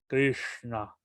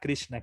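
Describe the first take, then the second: First: The sh is made with the tongue curled up. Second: The sh is made with a flat palatal tongue. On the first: This is the Sanskrit pronunciation. "la S con el punto abajo es más, de- es distinta, con la lengua hacia arriba" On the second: This is the usual Spanish-speaker pronunciation. "Nosotros normalmente pronunciamos Krishna ... como la S de Shravanam"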